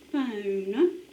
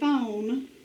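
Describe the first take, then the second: First: It is said with a standard accent. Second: It is said with a South Georgia accent.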